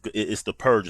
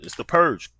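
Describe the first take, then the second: First: Said in the usual way. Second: "purge" jumps up in pitch with a falling tune; emphatic repeat. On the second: Real, not acted. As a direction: hammer home "It's the purge." with a high, falling "purge".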